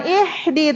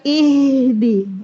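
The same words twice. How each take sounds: First: "ihdi" with the h changed to the other Arabic ha; wrong ha. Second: "ihdi" slow, with a long flowing h; correct ha. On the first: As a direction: say "ihdi" with the mistaken h. ("ihdi" dengan huruf ha yang tertukar) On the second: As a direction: let the h flow in "ihdi". ("ihdi" pelan dengan ha mengalir) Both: Shown as a demonstration. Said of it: "Jangan ihdi, tapi ihdi".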